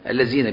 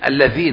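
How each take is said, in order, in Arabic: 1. الحرف الأول هو صوت 'z'. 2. الحرف الأول هو صوت 'th' مجهور. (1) "الذين بالزاي" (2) "لكن الذين اسم موصول معروف"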